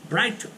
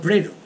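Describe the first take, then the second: First: The first vowel is an 'eye' sound. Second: The first vowel is an 'ee' sound. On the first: The speaker calls it wrong. "eles achavam que tinha que falar Brighton" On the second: The speaker calls it right. "Ele falava Brito"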